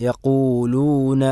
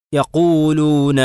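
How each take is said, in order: First: Slow recitation with the waw in യഖൂലൂന said lightly and naturally. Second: Slow recitation with the waw in യഖൂലൂന pushed hard and heavy; over-stressed waw. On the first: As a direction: let the waw of യഖൂലൂന sound natural, no extra weight. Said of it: "സ്വാഭാവികമായ രൂപത്തിൽ ഉച്ചരിക്കുക". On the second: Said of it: "വാവിന് stress കൊടുക്കരുത്". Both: Shown as a demonstration.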